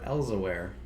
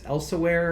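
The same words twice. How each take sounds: First: The S sound is weak and soft. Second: The S sound is strong and hissed. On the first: "a weak S" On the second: "a strong S"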